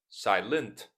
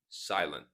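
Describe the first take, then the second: First: The T is clearly pronounced. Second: The T is silent or flapped. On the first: The speaker calls it wrong. "Not silent" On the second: The speaker calls it right. "but silent. Silent T"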